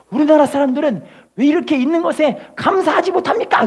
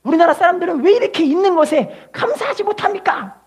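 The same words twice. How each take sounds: First: Weight on 못합니까 at the end, falling; 못합니까 pressed firmly as the rebuke; preacher's question. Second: Preacher hammering 왜 higher; stress on 왜. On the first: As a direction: rhetorical question landing on 못합니까. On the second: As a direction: lift the word 왜 as the accusing point. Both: Shown as a demonstration. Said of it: "repeated quote".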